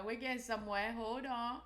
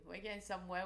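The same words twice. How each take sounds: First: Louder, higher, building hope; getting hopeful as it loads; rising excitement. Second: Said in the usual way. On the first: Real, not acted. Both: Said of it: "repeated phrase".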